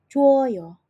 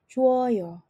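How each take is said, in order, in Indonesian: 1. Kedua vokal itu menyatu menjadi satu suku kata. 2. Kedua vokal itu menyatu menjadi satu suku kata.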